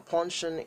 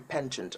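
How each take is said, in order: First: It is said with a British pronunciation. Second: It is said with an American pronunciation. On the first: "is how British people call it" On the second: "the American people say penchant"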